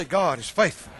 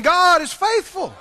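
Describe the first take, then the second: First: Said in the usual way. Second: Higher, louder, slower God is faithful; preacher pushes the crowd to say it louder; louder call. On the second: Shown as a demonstration. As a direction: make them say it stronger. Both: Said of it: "Say it again".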